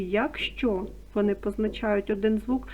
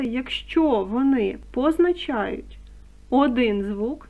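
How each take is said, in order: First: Said in the usual way. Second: ЯКЩО ВОНИ позначають, slow and weighty, word by word; emphatic stress. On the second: Shown as a demonstration. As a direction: stretch out "якщо", then stress "один звук" firmly. (з наголосом, повільно: «якщо») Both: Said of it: "наголошую".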